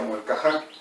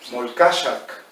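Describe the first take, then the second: First: The name ends in an open vowel sound. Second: The name has a sh sound and ends in k. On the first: This is how people say the name today. "le decimos Molcajá" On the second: This is the original older way of saying the name. "como se pronunciaba originalmente"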